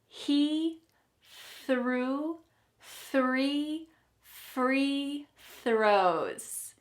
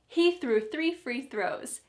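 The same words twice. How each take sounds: First: The sentence is said at a slower pace. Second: The sentence is said at a fast pace.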